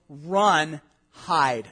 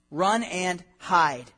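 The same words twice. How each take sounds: First: Said in the usual way. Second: Very slow, each word drawn out; dragged-out run and hide; slow emphatic repeat. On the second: Shown as a demonstration. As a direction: stretch run and hide out, heavy.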